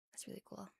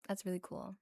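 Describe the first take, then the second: First: Very soft, whispered echo; barely-there ASMR murmur; hushed repeat. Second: Said in the usual way. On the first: Real, not acted. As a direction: drop to a near-silent whisper.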